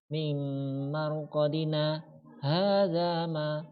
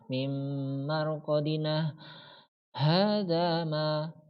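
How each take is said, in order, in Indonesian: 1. Berhenti sebentar tanpa mengambil napas. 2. Berhenti dengan mengambil napas. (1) "seperti itu ya" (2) "enggak boleh ngambil nafas"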